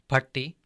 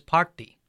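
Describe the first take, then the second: First: The first vowel is short. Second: The first vowel is long. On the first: "with a short A sound" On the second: "with a long A sound"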